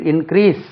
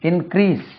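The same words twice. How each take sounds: The two takes are said the same way.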